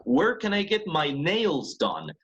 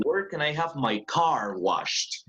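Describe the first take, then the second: First: "Where can I get my nails done?" read slowly with "nails" stressed above "done". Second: "Where can I have my car washed?" read slowly with "car" stressed above "washed". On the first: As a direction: land the main stress on "nails", keep "done" light. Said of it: "suena con fuerza nails". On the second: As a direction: land the main stress on "car", let "washed" stay light. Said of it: "una fuerza de voz más fuerte en car". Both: Shown as a demonstration. Teacher modelling sentence stress for the class.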